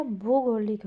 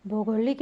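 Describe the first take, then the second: First: भूगोलिक said with the vowel the teacher points to; intended pronunciation. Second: भौगोलिक said quickly with bhau at the start; wrong pronunciation. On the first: Teacher giving pupils the intended form. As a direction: say भूगोलिक at an even pace. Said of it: "ओ की बड़ी मात्रा आएगी". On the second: Teacher quickly naming the wrong form for pupils. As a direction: open भौगोलिक with a bhau sound. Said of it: "भौगोलिक नहीं होगा". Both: Shown as a demonstration.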